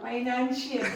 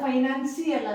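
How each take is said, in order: First: The consonant before 'ial' sounds like 'sh'. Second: The consonant before 'ial' sounds like 's'. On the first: The speaker calls it right. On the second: The speaker calls it wrong. "ಅದು ಫೈನಾನ್ಸಿಯಲ್ ಅಲ್ಲ"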